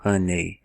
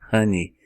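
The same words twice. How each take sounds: First: The final vowel is not an 'ee' sound. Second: The final vowel is an 'ee' sound. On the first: The speaker calls it wrong. "Você não vai dizer" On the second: The speaker calls it right. "você vai simplesmente dizer I"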